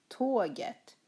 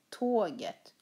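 No difference in how they are said.

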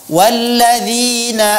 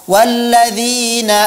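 No difference in how they are said.

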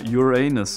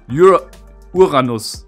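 First: The name is pronounced with English sounds. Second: The name is pronounced with German sounds. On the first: "In English you say Uranus" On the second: "in Germany we say Uranus"

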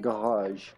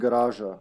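First: It is said with a French pronunciation. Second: It is said with a Serbian pronunciation. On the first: "In France, you would say probably garage" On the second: "Like in Serbia, we would say garage"

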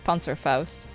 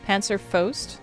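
First: The word is said with a Dutch pronunciation. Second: The 'au' vowel is said like 'O'. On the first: "In Dutch, I would say Panzerfaust" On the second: "AU typically sounds like O"

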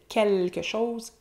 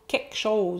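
First: The L in quelque is pronounced. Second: The L in quelque is dropped. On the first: "au lieu de" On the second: "enlever le L dans quelque"

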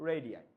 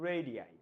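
The two takes are said the same way.

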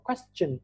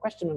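First: The 't' is said as a 'ch' sound. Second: The 't' is not said as a 'ch' sound. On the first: The speaker calls it right. "là question. ... Đọc thành S và âm chờ" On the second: The speaker calls it wrong. "Không là question"

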